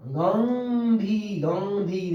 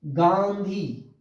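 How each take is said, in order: First: गांधी with only a nasal vowel, no firm n; nasalized vowel, wrong. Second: गांधी drawn out slowly, full nasal n before dh; anusvara pronunciation. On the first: Teacher shows the wrong nasalized गांधी. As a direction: let the aa of गांधी go through the nose, no n. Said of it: "यहाँ पर ये गलत हो गया". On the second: Teacher drags out गांधी to show the anusvara n. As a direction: stretch गांधी, closing firmly on the n. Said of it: "अनुस्वार का प्रयोग हो रहा है". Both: Shown as a demonstration.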